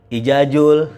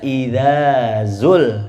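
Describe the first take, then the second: First: Both consonants are merged into a j sound. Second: The consonants are distinct dz and z sounds. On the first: The speaker calls it wrong. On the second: The speaker calls it right.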